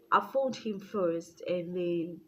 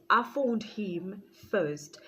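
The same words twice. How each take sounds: First: Said in the usual way. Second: Slowly stressed correction. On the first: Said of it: "correction repeated". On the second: Real, not acted. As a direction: spell it out slowly. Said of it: "correction of order".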